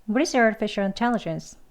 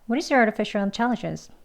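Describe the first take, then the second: No difference in how they are said.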